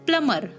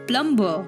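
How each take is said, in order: First: The b sound is silent in the word. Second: The b sound is pronounced in the word. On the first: The speaker calls it right. "Be silent here" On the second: The speaker calls it wrong. "It's not plumber"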